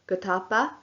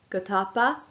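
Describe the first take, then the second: No difference in how they are said.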